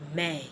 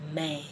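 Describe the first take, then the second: Both takes have the same delivery.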